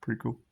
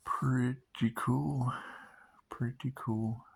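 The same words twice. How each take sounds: First: Said in the usual way. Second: "Pretty cool" stretched out very slowly, falling at the end; slow drawn-out. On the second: Shown as a demonstration. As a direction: drag out "Pretty cool" lazily.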